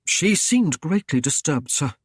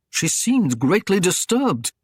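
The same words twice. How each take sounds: First: Said in the usual way. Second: Mocking echo of She seemed greatly disturbed, a bit higher and louder; lightly voiced scornful lord mimicking; snorting mockery. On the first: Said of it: "Kerwick swallowed hard". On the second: A narrator's reading. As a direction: throw his words back at him with a scoff. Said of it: "Wulfgar snorted".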